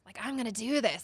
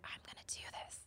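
First: Said in the usual way. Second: Whispered to herself, barely voiced; small inner whisper. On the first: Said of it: "got louder and louder". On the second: Telling the podcast host about her small inner voice, whispered. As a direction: whisper the resolve under your breath. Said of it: "this small little voice".

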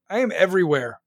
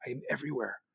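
First: First take louder, proud; bold claim. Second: Repeated much lower and softer, almost to himself; hushed echo. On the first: Bragging to his podcast listeners, loud and proud. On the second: Echoing his own podcast brag, hushed and low. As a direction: drop it to a near-whisper echo. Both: Shown as a demonstration.

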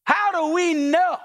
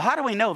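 First: "How do we know" high, slow and stretched; emphatic preaching question. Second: Said in the usual way. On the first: Acted. Preacher challenging congregation, "How do we know" slow and emphatic. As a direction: hold out "know" as a ringing challenge.

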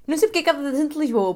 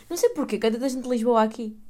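First: Higher, louder and faster; emphatic. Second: Said in the usual way. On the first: Shown as a demonstration. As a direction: say it again, with force. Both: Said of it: "repeats louder".

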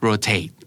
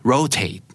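First: Rotate with weight on the last syllable; stress on second syllable. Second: Rotate with high stress on the first syllable; American pronunciation. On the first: Teacher echoing the UK word, rotate stressed at the end. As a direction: say rotate as roh-TATE. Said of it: "เน้นพยางค์ที่สอง". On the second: Teacher showing learners the US word, rotate stressed up front. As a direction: say rotate as ROH-tate. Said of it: "ทาง ยูเอส จะออกว่า". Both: Shown as a demonstration.

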